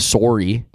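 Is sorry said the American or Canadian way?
Canadian. The word is said the Canadian way. "we are definitely more sorry"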